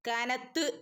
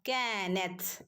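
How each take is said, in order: First: The final t is followed by a vowel. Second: The final t ends bare, with breath released. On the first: The speaker calls it wrong. "കാനത്ത് എന്നല്ല കേട്ടോ" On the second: The speaker calls it right. "തഇന സുക്കൂന് വരുമ്പോൾ ... നാവിന്റെയും പല്ലിന്റെയും ഇടയിലൂടെ കാറ്റ് പുറത്തേക്ക് പോകുന്ന രൂപത്തിലാവണം"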